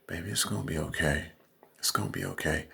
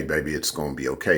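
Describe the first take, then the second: First: Much softer, hushed and fast; "Baby, it's gonna be okay" cooed quietly; softened sweet-talk voice. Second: Said in the usual way. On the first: Shown as a demonstration. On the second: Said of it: "as you just heard me say".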